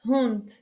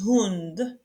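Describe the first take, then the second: First: Hund with a clear breathy H at the start; aspirated H. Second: Hund said with the H plainly pronounced; aspirated H. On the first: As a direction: sound the H in Hund. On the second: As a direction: breathe out the H of Hund. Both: Shown as a demonstration. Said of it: "On prononce le H ici".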